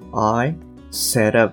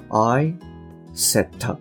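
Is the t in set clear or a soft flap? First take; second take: flap; clear. First: The t in set is a soft d-like flap. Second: The t in set is a crisp t. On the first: "I set up みたいな形になると" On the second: "I set up ではなくて"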